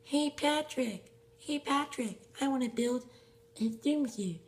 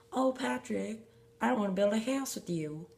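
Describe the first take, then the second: First: SpongeBob voice. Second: A light Southern twang, pitched up; lightly drawled Southern SpongeBob line; Southern accent. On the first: SpongeBob calls to Patrick, high cartoon voice. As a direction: play a high cartoon sponge calling his friend. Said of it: "And then Patrick goes like". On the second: SpongeBob asks Patrick to build, light Southern accent. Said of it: "that's a Southern accent". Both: Pretend.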